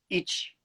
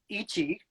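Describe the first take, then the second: First: The final vowel is devoiced and nearly silent. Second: The final vowel is fully voiced. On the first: "more natural pronuncia- pronunciation" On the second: "that's correct"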